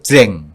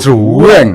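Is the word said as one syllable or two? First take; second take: one; two. First: The word is a short single syllable. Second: The word is stretched into two syllables. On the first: The speaker is from Solo or Central Java. "lek wong Solo kan njukur jreng" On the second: The speaker is from the local Ponorogo area. "Lah kalau di sini"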